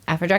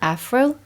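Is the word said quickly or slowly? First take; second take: quickly; slowly. First: The word is said quickly, run together. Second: The word is said slowly, syllable by syllable. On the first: The speaker calls it right. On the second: The speaker calls it wrong.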